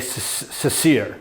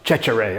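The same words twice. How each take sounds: First: The surname is said with American pronunciation. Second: The surname is said with Italian pronunciation. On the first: "My dad taught me years ago to say" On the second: "If you ask an Italian, they say that my name is supposed to be pronounced"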